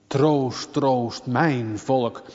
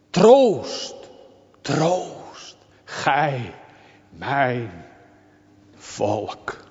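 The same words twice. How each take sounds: First: Said in the usual way. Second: Slow, falling, heavy text reading; solemn recital. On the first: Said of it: "text repeated plainly". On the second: Acted. Preacher reciting God's words solemnly to the church. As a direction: let each word sink in. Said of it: "solemn repeated text".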